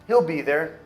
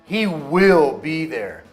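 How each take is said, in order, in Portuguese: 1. Will é contraído, sem ênfase especial. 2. Will é dito por extenso e com ênfase. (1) "Eu poderia falar, ... É uma contração" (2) "mas eu quero dar ênfase"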